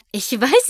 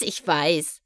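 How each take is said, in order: First: Higher, louder "weiß" with a bright rise; tossed out gleefully; happy giggle. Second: A contented chuckle; happy giggle. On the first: Skystar laughs off her guests' awe, bubbly. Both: A narrator's reading. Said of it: "kicherte Skystar glücklich".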